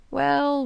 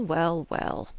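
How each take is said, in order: First: Musing well. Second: Said in the usual way. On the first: A narrator's reading. Jackson muses on marriages.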